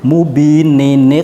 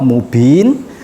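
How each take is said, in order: First: The word ends with an added -nin syllable. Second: The word ends with a plain n sound. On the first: The reading continues into the next word. "kalau wasal menjadi mubinin iqtulu" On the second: The reading stops at this word. "waqaf mubin"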